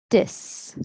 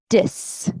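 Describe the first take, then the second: The two takes are said the same way.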